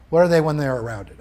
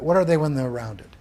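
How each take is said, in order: First: Louder, stress on "are" in "What are they when they're rounded?"; a firm teacher's challenge; pressing quiz question. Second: A teacher softening for a confused class; patient repeat. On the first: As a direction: push the class with "are". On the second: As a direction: ease off and coax an answer. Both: Shown as a demonstration. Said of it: "I know this is somewhat confusing".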